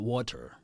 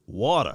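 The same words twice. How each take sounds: First: The middle consonant is a crisp t sound. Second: The middle consonant is a soft d sound. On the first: The speaker calls it wrong. "not water" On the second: The speaker calls it right. "You gotta say it like me from Mississippi with the D"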